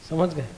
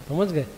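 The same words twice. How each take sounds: No difference in how they are said.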